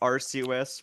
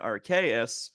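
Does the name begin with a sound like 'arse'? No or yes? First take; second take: yes; no. First: The name begins with a sound like 'arse'. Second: The name does not begin like 'arse'. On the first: This is the original pronunciation. "which is the original" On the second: This is the European pronunciation. "the European version"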